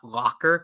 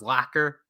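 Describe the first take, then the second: First: The first syllable sounds like 'lock'. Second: The first syllable sounds like 'lack'. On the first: The speaker calls it wrong. "not locker" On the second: The speaker calls it right. "it's pronounced as lacquer"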